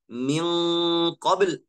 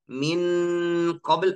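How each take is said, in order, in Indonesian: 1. Bunyi n tersembunyi dan disengaukan ke arah q. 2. Bunyi n diucapkan penuh dan jelas. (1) "tapi saya baca min qabl" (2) "saya tidak baca huruf nun dari makhrajnya"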